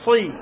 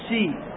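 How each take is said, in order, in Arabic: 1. صوت "صي" مفخم وثقيل. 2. صوت "صي" مرقق وخفيف. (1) "صي ليست سي" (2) "ليست سي"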